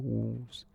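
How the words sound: The word is spoken aloud with full voice. "if I was to speak, I go Wolves, and I don't pronounce the W"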